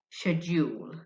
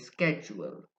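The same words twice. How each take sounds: First: It is said in a British accent. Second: It is said in an American accent. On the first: "The British people say schedule" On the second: "The Americans say schedule"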